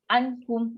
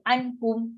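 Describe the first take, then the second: The two takes are said the same way.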